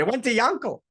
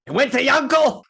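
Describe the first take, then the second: First: High, loud wail of horror; anguished disbelief. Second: Shrieked high and loud in horror; anguished disbelief. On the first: Teller repeating the ruined man's cry, wailing high and loud. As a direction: wail it as the worst possible news. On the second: Ruined man hearing his money went to Yankel, shrieking in disbelief. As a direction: cry it out as if the news is unbearable. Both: Retold or imitated.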